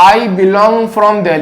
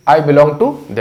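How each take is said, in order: First: "I belong from Delhi" read slowly, weight on I; wrong version, slowly. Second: "to" in "I belong to Delhi" lifted with a rise; correct version, stress on to. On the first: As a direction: spell out the wrong phrase slowly. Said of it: "ये भी सुना है". (गलत वाक्य धीरे-धीरे, I पर ज़ोर) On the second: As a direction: hit "to" as the fix. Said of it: "belong के साथ to लगता है". (सही वाक्य, to पर ज़ोर) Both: Shown as a demonstration.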